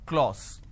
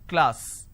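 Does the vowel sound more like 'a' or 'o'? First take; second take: o; a. First: The vowel is an 'o' sound. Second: The vowel is an open 'a' sound. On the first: The speaker calls it wrong. "people make a mistake and they make it O" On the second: The speaker calls it right. "This is how it's pronounced"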